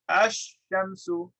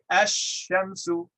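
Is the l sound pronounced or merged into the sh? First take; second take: merged; merged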